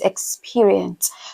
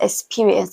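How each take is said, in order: First: The x is said as a full ks sound. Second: The x is said as a plain s sound. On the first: The speaker calls it right. "it is experience" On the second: The speaker calls it wrong. "it is not experience"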